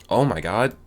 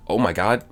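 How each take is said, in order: Both takes have the same delivery.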